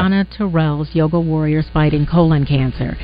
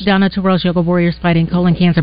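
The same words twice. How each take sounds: First: It is said slowly. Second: It is said quickly.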